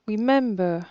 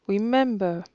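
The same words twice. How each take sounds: Both takes have the same delivery.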